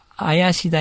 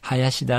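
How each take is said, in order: First: The name begins without an h sound. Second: The name begins with an h sound. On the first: "H を、まあ、習慣的に読まないんですね。" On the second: "無理やりフランス人にもですね、林田って呼ばしてました。"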